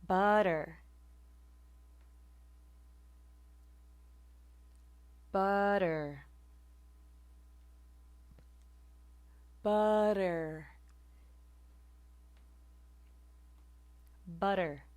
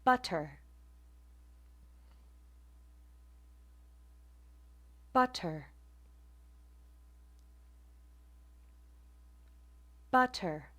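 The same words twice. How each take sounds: First: "butter" with the t as a quick flap; "butter" with the tongue flicking lightly, like budder; quick tap in the middle of "butter". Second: "butter" with a full crisp t; "butter" said carefully with a clear t sound; butter without tap. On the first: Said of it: "Now with the flap or tap". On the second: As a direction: spell out the t in "butter". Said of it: "without the tap is". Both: Shown as a demonstration.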